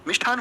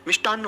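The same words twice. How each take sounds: First: मिष्ठान said as "mish-thaan" with a puff of air; wrong aspirated ठ. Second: मिष्टान्न said as "mish-taann"; no puff on the ट of मिष्टान्न, ending on a held n; correct unaspirated ट. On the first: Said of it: "जी नहीं". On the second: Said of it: "जी नहीं, मिष्टान्न होता है।". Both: Shown as a demonstration.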